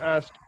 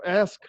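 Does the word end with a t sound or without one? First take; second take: with t; without t. First: The word ends with a t sound. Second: The word ends on the k sound. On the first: The speaker calls it right. "should have been asked" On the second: The speaker calls it wrong. "actually it was ask"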